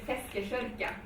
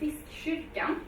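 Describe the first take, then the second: First: It is said with a Gothenburg dialect pronunciation. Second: It is said with standard Swedish pronunciation.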